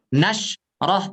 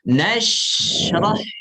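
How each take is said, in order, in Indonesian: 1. Bunyi sh dipotong tiba-tiba. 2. Bunyi sh mengalir terus tanpa putus. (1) "Jangan diputus, jangan nashrah" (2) "tapi nashrah"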